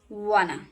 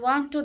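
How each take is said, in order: First: The words blend into one soft reduced word. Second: Both words are said fully and strongly. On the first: The speaker calls it right. "This is soft and natural" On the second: The speaker calls it wrong. "One to strong and one to this is incorrect"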